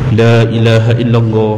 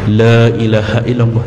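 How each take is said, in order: Both takes have the same delivery.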